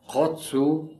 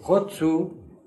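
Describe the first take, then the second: First: The final vowel is short. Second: The final vowel is lengthened. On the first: The verb 'to sing'. "Hotsu es el cantar" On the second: I sing. "con U alargada"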